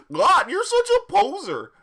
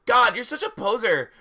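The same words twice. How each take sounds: First: Very high, loud cartoon voice; hammed-up silly character yell; Goofy. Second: High, loud mock-indignant yell; hammed-up scornful shout. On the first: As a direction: shriek it like a cartoon goofball. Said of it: "Hagrid's voice was Har-, uh, Goofy". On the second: A narrator's reading. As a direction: shout it as a fed-up teen. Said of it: "I shouted at Hagrid".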